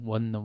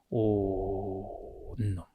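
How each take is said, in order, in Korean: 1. 이 단어는 'won' 소리로 시작해요. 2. 이 단어는 'on' 소리로 시작해요. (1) "원룸에서" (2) "온룸으로 발음을 바꾼"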